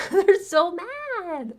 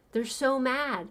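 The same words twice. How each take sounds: First: High, drawn-out MAD after a laugh; mocking squeal. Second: Said in the usual way. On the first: Repeats it in mocking glee.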